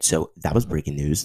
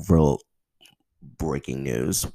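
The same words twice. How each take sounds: First: Said in the usual way. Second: "real" punched loud, "breaking news." slow and drawn; stress on real. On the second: Shown as a demonstration. Podcaster stressing how big the news is, punching "real". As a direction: lean hard on "real" then drag "breaking news.".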